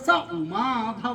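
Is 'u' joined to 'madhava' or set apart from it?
joined. 'U' runs straight into 'madhava' as one word. It refers to the husband of Uma. "നേരത്തെ പറഞ്ഞത് സ ഉമാധവ എന്നല്ലേ പറഞ്ഞത്?"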